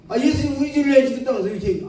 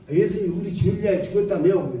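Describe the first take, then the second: First: Higher and fast, losing patience; exasperated question. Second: Said in the usual way. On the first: Retold or imitated. Preacher pressing the stubborn elder, exasperated and fast. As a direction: rush the question, fed up now. 아, 이 양반이 정말.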